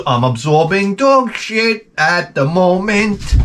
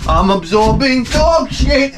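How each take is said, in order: First: Mock horror. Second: Much higher, slow, hammed-up dismay on "dog"; shrill mock horror. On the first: Dog mess on bare foot. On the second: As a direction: whine "dog shit" up high in fake panic. Repeat, higher.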